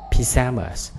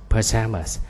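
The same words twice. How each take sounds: First: PYJAMAS with a clear "pi" first syllable; British pronunciation. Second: PAJAMAS with a reduced "puh" start; American pronunciation. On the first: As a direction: say "pyjamas" as pi-JA-mas, British style. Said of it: "tiếng Anh Anh là pyjamas". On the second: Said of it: "Anh Mỹ sắp trước". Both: Shown as a demonstration.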